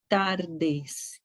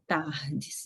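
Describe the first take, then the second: First: The r is pronounced the Spanish way. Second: The r is pronounced the Portuguese way. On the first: The speaker calls it right. "vocês devem pronunciar buenas tardes" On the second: The speaker calls it wrong. "e não tardes, igual ao português"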